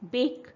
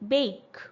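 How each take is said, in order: First: The vowel is one steady sound. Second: The vowel glides from a toward e. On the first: The speaker calls it wrong. "बेक is a wrong pronunciation" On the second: The speaker calls it right. "It is actually a and then slight e"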